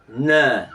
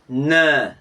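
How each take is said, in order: The two takes are said the same way.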